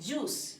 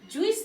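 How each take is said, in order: First: The vowel is one plain long oo. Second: The vowel glides from oo into ee. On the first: The speaker calls it right. "এটার actually উচ্চারণ হচ্ছে জুস" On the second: The speaker calls it wrong. "অনেকে বলে জুইস, জুইস না"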